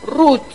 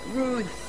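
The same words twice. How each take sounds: First: The name ends without a th sound. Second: The name ends with a th sound, tongue out. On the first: "karena sulit, nama anak saya dirubah di sini jadi" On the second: "untuk T H-nya lidah harus keluar"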